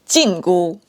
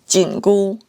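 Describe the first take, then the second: First: Jingu is said with the tones for prohibition. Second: Jingu is said with the tones for tightening. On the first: It names the prohibition band. "the prohibition band" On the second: It names the tightening band. "the tightening band"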